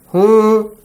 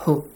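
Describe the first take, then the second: First: The final vowel is stretched longer. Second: The final vowel is short. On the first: The speaker calls it right. "A bit longer" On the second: The speaker calls it wrong. "Not who"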